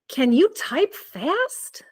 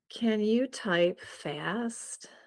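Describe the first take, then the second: First: It is said in a surprised tone. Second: It is said in a bored tone.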